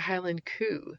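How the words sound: Cow is said as Scottish 'coo'.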